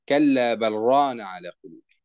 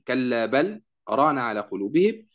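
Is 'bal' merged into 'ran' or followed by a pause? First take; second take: merged; pause. First: The 'l' of 'bal' merges fully into 'ran'. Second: A brief pause follows 'bal' before 'ran'. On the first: "إدغام اللام في الراء إدغاما كاملا" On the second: "تقرأ بالسكت"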